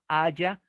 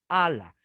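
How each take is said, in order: First: The middle consonant sounds like a Y. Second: The middle consonant sounds like an L. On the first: "Se puede pronunciar en español haya" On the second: "En inglés la doble L es L"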